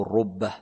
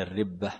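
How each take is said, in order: First: الربة said ar-rubbah, with a "u" after the ra; damma on the ra. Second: الربة said ar-ribbah, with an "i" after the ra; kasra on the ra. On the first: Teacher showing both vowellings, الربة here as rubbah with damma. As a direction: give الربة a short "u": ar-rubbah. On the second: Teacher showing both vowellings, الربة here as ribbah with kasra. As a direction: give الربة a short "i": ar-ribbah. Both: Shown as a demonstration. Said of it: "بالضم والكسر، ضم الراء وكسرها".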